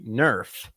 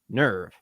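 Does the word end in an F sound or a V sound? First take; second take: F sound; V sound. First: The word ends with a hard F sound. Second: The word ends with a soft V sound. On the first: It follows the German pronunciation. "nerf with a hard, like with an F" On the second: It follows the Japanese creators' pronunciation. "the Japanese pronounced it nerve"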